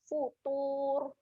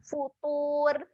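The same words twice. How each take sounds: First: The final r sound is thick and heavy. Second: The final r sound is thin and light. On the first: The speaker calls it right. "tebalkan bunyi huruf ra" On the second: The speaker calls it wrong. "kalau kita baca dengan nipis dia berbunyi macam ni"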